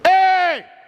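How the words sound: The voice sounds airy, pushed out with breath. "that's pushing air"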